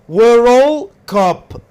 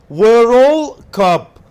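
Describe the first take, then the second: Both takes have the same delivery.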